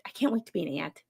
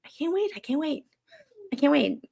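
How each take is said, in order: First: Said in the usual way. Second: High, eager repeated squeal of "I can't wait"; excited. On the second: Real, not acted. Repeats excitedly about becoming aunt.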